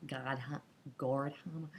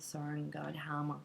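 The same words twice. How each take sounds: First: Attempted American accent on "Gordhammer"; American-accented try at the surname "Gordhammer". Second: Said in the usual way. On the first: Real, not acted. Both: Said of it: "tried to do that in an American accent".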